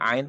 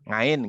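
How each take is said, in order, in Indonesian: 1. Kata ini langsung dimulai dengan vokal. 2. Kata ini dimulai dengan bunyi 'ng' yang ditambahkan. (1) "setiap ngomong ain tuh ngain" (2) "orang Jawa setiap ngomong ain tuh ngain"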